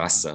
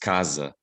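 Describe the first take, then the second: First: The middle consonant is a hissing S sound. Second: The middle consonant is a buzzing Z sound.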